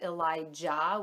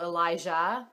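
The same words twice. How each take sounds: First: The J is a hard sound, as in jam. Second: The J is soft, like the French je. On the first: "some people pronounce it Elijah with like a hard J" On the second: "we liked it with the softer J, sort of like in like je m'appelle"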